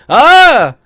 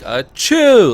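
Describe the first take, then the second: First: The stress is on the first syllable. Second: The stress is on the second syllable. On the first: The speaker calls it wrong. "I put my sneeze on the wrong syllable" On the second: The speaker calls it right. "Most people go like a chew"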